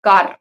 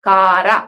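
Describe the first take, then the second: First: The word ends on a bare 'r' consonant. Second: The word ends with an extra vowel sound. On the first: The speaker calls it right. "புள்ளி வச்ச எழுத்து தான்" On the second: The speaker calls it wrong. "காரா அப்படின்னு படிக்க மாட்டோம்"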